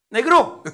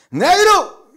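First: Loud, high norteño holler; calling out. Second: Put-on very high, loud drunken shout; almost shouting. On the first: Acted. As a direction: holler to the bartender. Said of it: "le hablaba". (llamándolo fuerte, medio gritón) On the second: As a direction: bellow at the bartender, pitched way up. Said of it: "Al final casi gritándole". (casi gritando, borracho)

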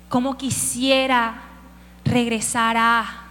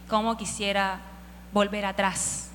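First: Slow, stretched wishful longing; slow drawn-out longing. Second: Quiet, wistful sigh of longing; soft wistful longing. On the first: David longing to return, drawn out slowly. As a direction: draw out the wish slowly. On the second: David quietly wishing to go back, wistful. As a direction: sigh it softly, wishing for the past. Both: Retold or imitated. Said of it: "Y él solo dice".

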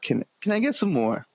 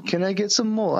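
First: High, meek English orphan plea; English accent. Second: Put-on English accent. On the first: Retold or imitated. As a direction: beg meekly in an English accent. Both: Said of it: "I can do a fucking English accent".

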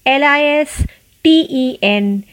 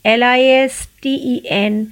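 Both takes have the same delivery.

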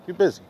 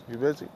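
First: Louder falling "You busy." as a shrug; flat statement. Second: Rising question to the friend; asking. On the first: To the busy homeboy, a louder falling shrug. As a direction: drop "You busy." down like a verdict. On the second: To the busy homeboy, a rising question. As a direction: tilt "You busy?" up like a real question. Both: Shown as a demonstration.

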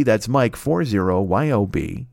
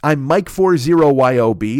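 First: "four zero" spelled out slowly so it sticks; slow down and spell the handle out; repeating the handle slowly for listeners; slow, clear repeat. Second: Said in the usual way. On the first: Shown as a demonstration.

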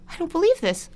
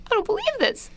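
First: High disbelief. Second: Higher disbelief. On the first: Indignant retold reaction. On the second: Repeats higher. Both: Retold or imitated.

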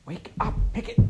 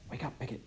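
First: Sharper, louder whisper. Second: Soft whispered wake-up; whispering. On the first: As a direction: whisper harder to rouse him. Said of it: "she whispered louder". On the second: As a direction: whisper so only he hears. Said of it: "she whispered". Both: A narrator's reading.

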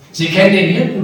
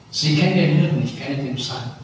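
First: Sie "kennen" den Hirten, louder and higher, rising on "kennen"; stress on kennen. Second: Said in the usual way. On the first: Shown as a demonstration. Preacher answering the actor's line, stressing "kennen". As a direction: hit "kennen" hard and lift it. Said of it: "repeats the actor's line emphatically". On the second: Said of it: "wie sagte der Schauspieler".

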